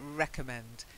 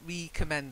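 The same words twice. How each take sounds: First: The first syllable is not a prefix 're'. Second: The first syllable is a full prefix 're'. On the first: The speaker calls it right. "it's recommend" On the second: The speaker calls it wrong. "It's not a re, it's a false prefix. It's not like to recommend something"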